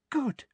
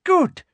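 First: High, soft, pleased voice; soft satisfaction. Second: Very high, loud approval; emphatic satisfaction. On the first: Umbridge surveys her captives, softly satisfied. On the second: Umbridge watches Ginny struggle, emphatically satisfied. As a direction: punch it out, high and pleased. Umbridge repeats it, more forcefully. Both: Acted.

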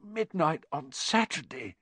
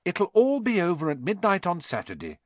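First: Slow, high hoarse echo of dawning alarm. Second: Put-on higher-pitched, mildly soothing girl; lightly voiced attempt to calm a friend down; reassuring. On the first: Ron sits bolt upright and breaks into a sweat, hoarse. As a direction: repeat it slowly in a hoarse, strained voice. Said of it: "he said in a hoarse voice". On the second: Hermione tries to calm Ron down, reassuring. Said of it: "tried to calm Ron down". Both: A narrator's reading.

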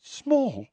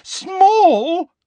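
First: High, contained disbelief, falling; incredulous echo. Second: Very high, loud incredulous shriek; loud, drawn-out rising disbelief; outraged disbelief. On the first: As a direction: repeat it in small, high disbelief. Incredulous echo, first take. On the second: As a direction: blurt it shrilly, rising. Incredulous echo, second louder take. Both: A narrator's reading.

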